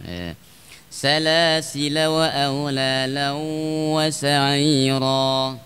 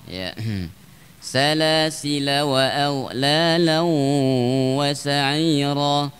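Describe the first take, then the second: The two takes are said the same way.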